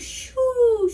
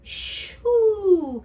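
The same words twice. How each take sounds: First: The word is said quickly and clipped. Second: The word is said slowly and drawn out.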